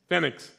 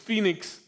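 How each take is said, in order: First: It is said with a Spanish pronunciation. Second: It is said with an English pronunciation. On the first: "the Chileans pronounce it Phoenix. They spelled it F-E-N-I-X" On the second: "English, it's Phoenix"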